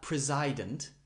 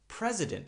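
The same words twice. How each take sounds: First: The second vowel is full and strong. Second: The second vowel is short and reduced. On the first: The speaker calls it wrong. "not president" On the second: The speaker calls it right. "It's very, very fast and very short"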